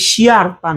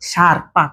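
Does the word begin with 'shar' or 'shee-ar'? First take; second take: shee-ar; shar. First: An extra 'ee' vowel follows the 'sh' sound. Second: The 'sh' goes straight into the 'a' vowel. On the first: The speaker calls it wrong. "তার মানে শিয়ার পা না" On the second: The speaker calls it right. "এটা হচ্ছে কি শার্পা"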